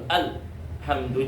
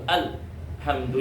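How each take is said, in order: First: The l sound is cut off abruptly. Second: The l sound is cut off abruptly.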